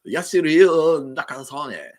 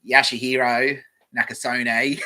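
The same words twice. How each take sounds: First: Exaggerated mock Japanese accent, much louder; slow, high, hammed-up Japanese accent. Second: Broad Aussie bogan, drawn out and louder; loud, slow bogan reading of a name; bogan accent. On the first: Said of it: "So which one's more racist?". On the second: Streamer mocking how a bogan would read it, broad bogan accent. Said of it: "If I read it like a Bogan". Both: Shown as a demonstration.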